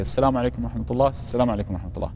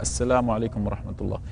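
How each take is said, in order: First: Rushed, fast salam without pause; hurried greeting. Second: Calm, measured salam at a normal pace; unhurried greeting. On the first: Teacher showing students the common rushed salam, fast. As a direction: rattle off both greetings quickly. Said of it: "جل الناس يسلم هكذا". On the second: Teacher showing students the proper salam, unhurried. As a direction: take your time with each word. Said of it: "بمعنى يسلم هكذا". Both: Shown as a demonstration.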